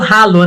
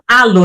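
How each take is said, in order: First: The word starts with an audible h sound. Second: The word starts with no h sound. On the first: "tem o Hzinho com aquele sonzinho do inglês" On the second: "aí a gente fala halo, ... Sem o, sem o som. A gente fala o H do Brasil"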